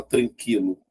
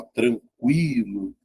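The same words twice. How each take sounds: First: TRANQUILO with a silent U, as "trankilo"; wrong pronunciation demo. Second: TRANQUILO drawn out slowly, U sounded as "kwi"; correct pronunciation demo. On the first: Teacher shows students what you don't say, silent-U TRANQUILO. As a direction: say "tranquilo" with a plain K sound, no W glide. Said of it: "você não fala tranquilo". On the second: Teacher shows the U is pronounced, slow TRANQUILO with a W glide. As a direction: stretch "tranquilo", letting the U glide into a strong I. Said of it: "é pronunciada". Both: Shown as a demonstration.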